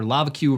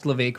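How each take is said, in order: First: The name starts like the word 'lava'. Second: The name does not start like 'lava'. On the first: The speaker calls it wrong. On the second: The speaker calls it right. "you mean Levake?"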